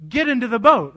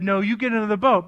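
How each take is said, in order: First: Louder, higher repeated order; insistent command. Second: Brisk, slightly raised order; firm command. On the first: Jesus overruling the disciples' protest, insistent command. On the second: Jesus making reluctant disciples leave, firm first order. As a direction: imitate a parent insisting. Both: Retold or imitated. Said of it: "He made them".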